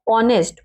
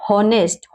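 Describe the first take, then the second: First: ऑनेस्ट starting on the o vowel; correct pronunciation. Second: हॉनेस्ट starting with a sounded h; children's misreading. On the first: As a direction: drop the h in ऑनेस्ट. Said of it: "ओ से start करेंगे". (ह चुप रखकर ऑनेस्ट) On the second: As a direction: breathe an h onto the start of हॉनेस्ट. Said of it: "कुछ बच्चे क्या पढ़ते हैं". (शुरू में ह बोलकर हॉनेस्ट) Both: Shown as a demonstration.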